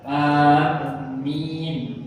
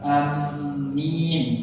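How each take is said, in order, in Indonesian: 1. Vokal pertama panjang, dengan m ganda. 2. Vokal pertama pendek, dengan m ganda. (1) "hamzah dipanjangkan, mim ditasydid dan ada dan ada huruf ya" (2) "dengan memendekkan hamzah, mim ditasydid dan ada huruf ya"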